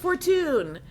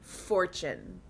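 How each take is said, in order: First: The name is said in a fancy, foreign-sounding way. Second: The name is said like the plain English word. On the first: The speaker calls it wrong. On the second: The speaker calls it right.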